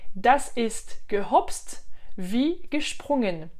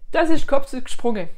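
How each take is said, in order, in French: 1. C'est dit lentement, en allemand standard. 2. C'est dit avec un accent dialectal souabe. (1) "en le parlant plus lentement et plus dans le Hochdeutsch" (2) "je le dis en plus en dialecte, hein, le Schwäbisch"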